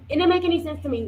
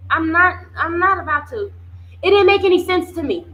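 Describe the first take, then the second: First: Said in the usual way. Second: Louder, higher first take of the line; emphatic outburst. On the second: Real, not acted. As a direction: push it out in disbelief. Indignant repeat of own point.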